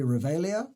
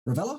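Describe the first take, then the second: First: The name is said as Revelia, following its spelling. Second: The name is said as Ravella, a shorter form. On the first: This is how the spelling suggests it. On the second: This is how its owner says it.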